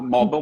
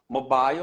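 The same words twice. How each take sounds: First: The word is said in an American way. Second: The word is said in a British way. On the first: "mobile mais americano" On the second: "seria um som mais britânico"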